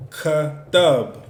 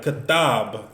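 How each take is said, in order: First: Katab split slowly, KA, then TAB; teacher's loud, slow breakdown of Katab; broken into syllables. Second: Said in the usual way. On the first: Shown as a demonstration. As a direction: sound out Katab with a gap between ka and tab. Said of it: "So we got three syllables". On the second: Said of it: "Hebrew is called katamb".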